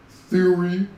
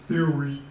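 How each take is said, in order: First: THEORY pushed high and loud, rising at the end; insistent repeat. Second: THEORY asked a little raised and louder; first, milder prompt on THEORY; questioning repeat. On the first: Streamer prompting viewers to know the band, THEORY loud and rising. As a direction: hammer THEORY as an incredulous question. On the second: Streamer prompting viewers to know the band, THEORY as a nudge. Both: Shown as a demonstration.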